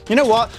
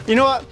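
No difference in how they are said.

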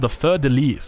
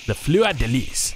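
First: Said in the usual way. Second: Slow, drawn-out French accent on "Fleur de Lis"; best French accent. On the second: Shown as a demonstration. Caster repeating the shield's name for viewers, in a French accent. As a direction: put on your best French accent, slowly. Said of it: "with my best French accent".

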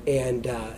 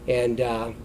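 Both takes have the same delivery.

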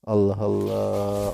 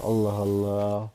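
First: Slow, lower, drawn-out exasperation; exasperated drawl. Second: Slow, softer, resigned; quieter exasperated sigh. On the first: Streamer fed up with a rude chatter, dragging it out. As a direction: stretch it out, fed up. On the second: Streamer trailing off in resignation after the first sigh. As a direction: mutter it, worn out. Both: Real, not acted. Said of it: "sinirli girdim".

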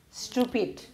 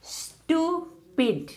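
First: Said in the usual way. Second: "Stupid" split as a long high stu, pause, pid; syllable by syllable. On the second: Shown as a demonstration. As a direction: stretch and separate both beats of "Stupid". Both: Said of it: "two syllable word".

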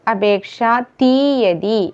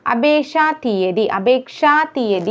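First: അപേക്ഷാ തീയതി slowly, "thee" drawn out; correct pronunciation. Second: അപേക്ഷാ തീയതി run together with a short "thi"; wrong pronunciation. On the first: Teacher correcting learners, slow careful അപേക്ഷാ തീയതി. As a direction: stretch the long vowel in തീയതി of അപേക്ഷാ തീയതി. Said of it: "എന്നാണ്". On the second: Teacher showing the mistake, hurried അപേക്ഷാ തീയതി. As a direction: say അപേക്ഷാ തീയതി quickly, vowels cut short. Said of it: "എന്നല്ല". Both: Shown as a demonstration.

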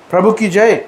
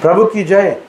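The two takes are said the same way.

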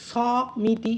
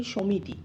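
First: সমিতি with a drawn-out open "saw" first syllable; wrong pronunciation demo. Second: সমিতি run together as "shomiti", rounded first vowel; correct pronunciation demo. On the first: Teacher showing how we don't say it, সমিতি with long open first vowel. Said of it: "এইভাবে উচ্চারণটা করি না". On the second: Teacher showing how we really say it, সমিতি as a joined "shomiti". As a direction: say সমিতি as one everyday word, "sho-mi-ti" unstretched. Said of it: "আমরা উচ্চারণ করি". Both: Shown as a demonstration.

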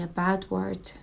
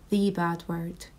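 First: Said in the usual way. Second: The said as "thee", weighted; stress on THE. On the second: Acted. Mum telling her baby about the insult, stress on The. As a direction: lean on "The" to mean that one word. Corrects 'a' to the specific one.

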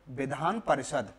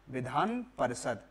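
The two takes are said the same way.

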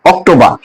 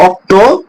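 First: অক্টোবর ending in "-baa", no r; British pronunciation. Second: অক্টোবর broken as "okto... bor", higher; local Bengali pronunciation. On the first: Teacher showing how the British say it, British pronunciation. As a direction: drop the final r of অক্টোবর, "ok-to-baa". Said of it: "ব্রিটিশরা বলে". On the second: Teacher prompting what we say, local pronunciation. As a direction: say অক্টোবর with a rounded "-bor" ending. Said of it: "আমরা বলি কি". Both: Shown as a demonstration.

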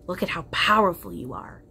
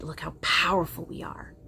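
First: "powerful" pressed a bit harder; emphatic. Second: Said in the usual way. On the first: Real, not acted. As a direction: lean into "powerful" to convince. Repeated line, louder second take.

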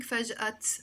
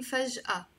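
First: "فجأة" ending in a sounded t, faj'at; wrong T ending. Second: "فجأة" ending in an open ah, faj'a; silent T, A ending. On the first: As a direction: close "فجأة" on an audible t. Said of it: "I'm not saying فجأة". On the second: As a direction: finish "فجأة" on ah, no t. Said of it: "I'm saying فجأة". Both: Shown as a demonstration.

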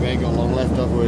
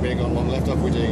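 First: Louder call. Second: Loud call. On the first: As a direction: shout it out. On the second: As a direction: call it out loudly. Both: Real, not acted.

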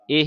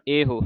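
First: ਇਹ as "eh", no final o; wrong dropped ending. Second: ਇਹੋ as "e-ho"; sounded hora. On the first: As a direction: stop ਇਹ on the h. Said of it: "ਨਹੀਂ ਪੜ੍ਹਨਾ". (ਇਹ ਨੂੰ ਹੋੜੇ ਤੋਂ ਬਿਨਾਂ) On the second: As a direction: give ਇਹੋ its final rounded vowel. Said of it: "ਹਾਏ ਹੋੜਾ ਹੈ". (ਇਹੋ ਵਿੱਚ ਹਾਹੇ ਦਾ ਹੋੜਾ ਬੋਲੋ) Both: Shown as a demonstration.

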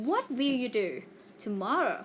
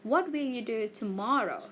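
First: "What will you do", brief pause, then "tomorrow"; slight pause after DO. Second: Said in the usual way. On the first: Shown as a demonstration. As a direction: leave a short gap between DO and TOMORROW. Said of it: "เว้นวรรคนิดนึง". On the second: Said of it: "ไม่ได้แบบหยุดเลยนะ".

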